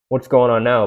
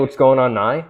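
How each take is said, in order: First: The last word is said as 'now'. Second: The last word is said as 'nigh'. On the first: The speaker calls it right. "Just say now" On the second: The speaker calls it wrong. "an incorrect way to say the word now"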